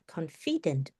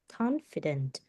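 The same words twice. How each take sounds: First: The stress is on the second syllable. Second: The stress is on the first syllable. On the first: The speaker calls it wrong. "it's not confident. No, it's not like that" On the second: The speaker calls it right. "The stress is on the first one"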